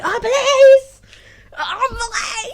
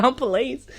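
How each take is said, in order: First: High, loud retold cry of alarm; shrieking in mock panic; mock panicked shout. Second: Said in the usual way. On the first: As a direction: yell it out like the police just showed up. Retold alarm on seeing police.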